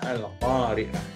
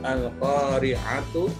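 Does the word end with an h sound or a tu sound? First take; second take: h sound; tu sound. First: The word ends with an h sound. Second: The word ends with a tu sound.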